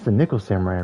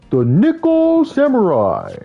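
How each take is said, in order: First: The name is said plainly, with little energy. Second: The name is said forcefully, with lots of energy. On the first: The speaker calls it wrong. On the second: The speaker calls it right.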